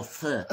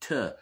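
First: "th" said with the tongue between the teeth; standard th sound. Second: "t" as a short hard stop; th hardened to t. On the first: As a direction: sound out a clear "th". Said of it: "The T Hs are no th". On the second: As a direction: sound out a hard "t" in place of th. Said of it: "It's t". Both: Shown as a demonstration.

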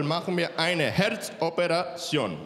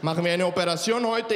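First: Put-on slow, stretched Latino-accented announcement; serious Latino doctor. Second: Put-on lightly accented Latino surgeon's question; a hint of Latino lilt, at normal speed; serious Latino doctor. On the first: Latino doctor announcing heart surgery, slow dancing drawl. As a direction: draw out the operation word with Latino lilt. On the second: Latino doctor asking about today's operation, light Latino accent. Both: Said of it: "der ernsteste Latino auf der Welt".

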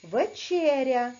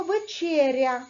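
First: Teacher repeats the word for the class; slow repeat. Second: Вечеря said slowly, every sound clear; slow teacher model of вечеря; careful model reading. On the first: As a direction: say Вечеря again, drawn out. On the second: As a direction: read вечеря syllable by syllable, slowly. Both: Shown as a demonstration. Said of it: "А тепер прочитайте слово".

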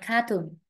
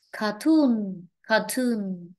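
First: "cartoon" in the learner's faulty way; the wrong take of "cartoon", as a learner said it; mispronounced cartoon. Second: "cartoon" stressed on the long final TOON; car-TOON, model "cartoon" for a learner; stress on second syllable. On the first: Teacher quotes a student's faulty word back, mispronounced cartoon. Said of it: "not cartoon". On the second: Teacher corrects a student's cartoon, stress on second syllable. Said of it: "Ta chú ý về trọng âm". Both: Shown as a demonstration.

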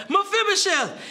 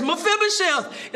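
First: "Mephibosheth" called out high with an exclamation point; exclaimed name. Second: Said in the usual way. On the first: Shown as a demonstration. Preacher shows David's exclaimed greeting to Mephibosheth. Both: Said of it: "It's the exclamation point there".

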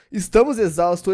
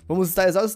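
First: Estamos said louder as the correction; stress on Estamos. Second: Said in the usual way. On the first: Shown as a demonstration. Gamer correcting himself to his viewers, pushing Estamos. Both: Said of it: "não".

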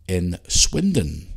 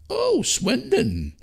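First: Said in the usual way. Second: Swindon drawn out slowly, much higher, amused surprise; surprised. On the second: Real, not acted. Host reacting to a listener's hometown, drawn-out surprise. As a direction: stretch Swindon out in mock wonder.

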